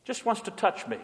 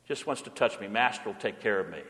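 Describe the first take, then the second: First: Said in the usual way. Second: Much softer, lower repeat of the line; softly echoing the line, lower. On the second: Acted. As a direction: let it fall away, tender and hushed. Repeated line about the cat.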